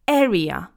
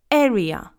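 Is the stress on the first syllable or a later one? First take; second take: first; first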